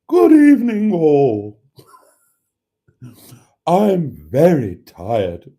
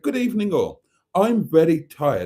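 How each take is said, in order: First: It is said in a weary, tired voice. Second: It is said in a normal, lively voice.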